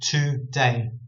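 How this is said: It is said as two separate words. The speaker calls it right. "I would actually read that as two words"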